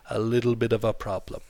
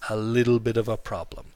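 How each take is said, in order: The two takes are said the same way.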